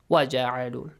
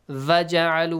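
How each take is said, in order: First: The first word begins with a w sound. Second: The first word begins with a v sound. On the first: The speaker calls it right. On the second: The speaker calls it wrong. "Make sure you don't say va"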